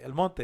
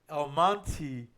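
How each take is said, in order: First: Monte ends with an 'eh' vowel sound. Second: Monte ends with an 'ee' vowel sound. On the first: "El Monte in Spanish" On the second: "Everybody in English, El Monte, like the name M O N T Y"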